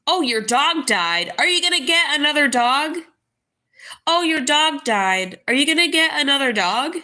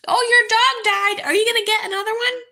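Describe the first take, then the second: First: Louder, fast mocking parrot of nosy people. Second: Much higher, louder, fast mock voice of nosy askers; shrill mockery. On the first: Mocking the people who asked about a new dog, louder and fast. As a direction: rattle off their question like they do. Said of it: "people were like". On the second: Mocking anonymous people asking about another dog, high and fast. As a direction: squeal the question like a silly caricature. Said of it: "so weird about this question".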